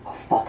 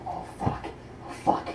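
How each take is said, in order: First: Said in the usual way. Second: Unvoiced whispering swear; whispered panic. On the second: Panicking after killing him.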